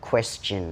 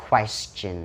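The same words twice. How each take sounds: First: "question" with an E vowel, KWES-chin; correct pronunciation of question. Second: "question" with a wrong first vowel, like "kwas-chin"; mispronounced question. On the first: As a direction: say "question" clearly as KWES-chun. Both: Shown as a demonstration. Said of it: "ต่อเป็น".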